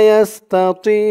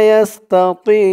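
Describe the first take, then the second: Both takes have the same delivery.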